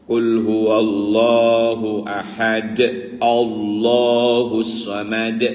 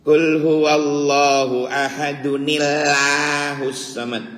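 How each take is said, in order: First: No n sound is added before 'Allah'. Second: An n sound links 'ahad' into 'Allah'. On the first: The speaker calls it right. "Allah tetap lam jalalah dibaca Allah" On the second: The speaker calls it wrong. "Kalimat Allah tetap jangan"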